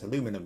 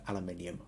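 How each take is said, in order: First: It is said the North American way. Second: It is said the British way.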